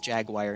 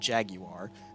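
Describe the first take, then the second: First: Jaguar is said in an American way. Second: Jaguar is said in a British way. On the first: The speaker calls it right. "I'm from America, so it's Jaguar" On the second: The speaker calls it wrong. "not Jaguar"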